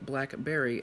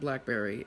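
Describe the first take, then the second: First: It is said as two separate words. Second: It is said as one joined word. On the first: The speaker calls it right. "two words are separated, so I'm going to say them separated" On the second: The speaker calls it wrong. "and not Blackberry"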